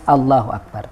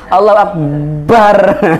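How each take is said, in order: First: The syllable with b is said short and plain. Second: The b sound is doubled and held. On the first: The speaker calls it right. "tapi harus Allahu Akbar" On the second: The speaker calls it wrong. "tidak mentasdid ba ... Allahu Akbar memaksa gitu ya"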